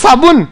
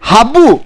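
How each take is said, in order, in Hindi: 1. यह शब्द s ध्वनि से शुरू होता है। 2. यह शब्द h ध्वनि से शुरू होता है।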